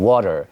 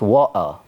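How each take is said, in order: First: The T is a quick flap like D. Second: The T is a different, non-flap sound. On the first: "sounds, yeah, kind of like a D" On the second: "it is another sound"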